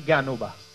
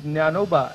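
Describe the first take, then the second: First: The name begins with a 'gy' sound. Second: The name begins with a 'jn' sound. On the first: This is the everyday devotees' form. "still our Varkari say Gyanoba" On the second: This is the proper scriptural form. "it is Jnanoba"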